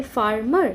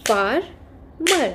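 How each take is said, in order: First: Said in the usual way. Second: "Farmer" broken slowly as far, mer; split into syllables. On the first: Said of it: "if we have two syllables". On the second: Shown as a demonstration. Teacher showing children two syllables, "Farmer" split as far, mer. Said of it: "How we'll say?".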